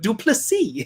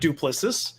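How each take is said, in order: First: The name is pronounced differently from its spelling. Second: The name is pronounced just as it is spelled. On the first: The speaker calls it right. "Duplessis is the right way to go" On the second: The speaker calls it wrong. "I know it looks like Duplessis"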